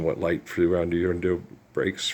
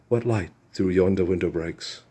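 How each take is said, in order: First: It is said in the speaker's normal, non-British accent. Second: It is said in a British accent.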